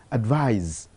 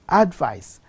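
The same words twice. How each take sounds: First: "advise" ending in buzzed z; final Z sound. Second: "advice" ending in voiceless s; final S sound. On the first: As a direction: say "advise" as ad-VIZE, voiced ending. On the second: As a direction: say "advice" as ad-VICE, hissed ending. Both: Shown as a demonstration. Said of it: "change of the final sound from s to z".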